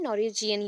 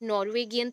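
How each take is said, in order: First: It has a j sound before -ian. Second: It has a hard g sound before -ian. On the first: The speaker calls it right. "नॉर्वेजियन ही होगा" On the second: The speaker calls it wrong. "गियन तो होगा नहीं, नॉर्वेगियन तो होगा नहीं"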